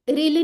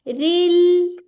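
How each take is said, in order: First: The final l sound is cut short. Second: The final l sound is drawn out. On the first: The speaker calls it wrong. "रिल नहीं कर देना" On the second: The speaker calls it right. "इसकी आवाज थोड़ी चलेगी"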